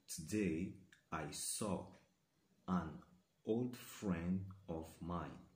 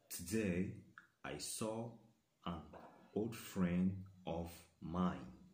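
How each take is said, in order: Both takes have the same delivery.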